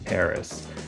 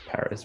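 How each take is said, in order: First: The first syllable sounds like "pear". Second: The first syllable sounds like "pa". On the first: This is how most of America says it. "lots of America links that A to the R and becomes pear air" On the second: This marks the speaker as East Coast. "he does pa Paris, which is very East Coast"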